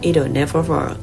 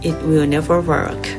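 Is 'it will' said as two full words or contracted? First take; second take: contracted; full. First: It will is contracted into one word. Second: It will is said as two full words. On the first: The speaker calls it right. "แต่จะพูดว่า" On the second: The speaker calls it wrong. "หากไม่จำเป็นพวกเขาจะไม่พูดว่า"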